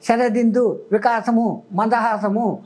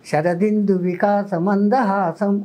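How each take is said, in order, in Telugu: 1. ఇది అడ్డదిడ్డమైన, అసమానమైన లయతో చదవబడింది. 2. ఇది స్థిరమైన, సమానమైన లయతో చదవబడింది. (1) "రిథిం అడ్డదిడ్డంగా" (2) "ఒక రిథిం చూడండి ఎంత బాగుందో"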